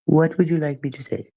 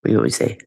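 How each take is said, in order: First: Higher, prim mock-polite ask; put-on prissy voice. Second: Said in the usual way. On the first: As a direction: repeat it as a prim, overly polite character. Repeats question in a put-on voice.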